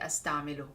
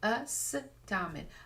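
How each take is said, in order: First: The word ends with a final 'u' vowel. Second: The word ends without a final vowel. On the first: "present tense we have the the dhamma at the end" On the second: "I'm pausing at the end just because I'm talking"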